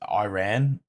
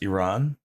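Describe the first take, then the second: First: The first vowel sounds like 'eye'. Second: The first vowel sounds like 'ee'. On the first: This is how the listener's country says it. "so you guys pronounce it as Iran" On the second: This is how the name is really said. "but it's Iran"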